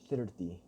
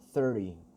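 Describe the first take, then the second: First: It has a Spanish-accented vowel and r. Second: It has an American r-colored vowel.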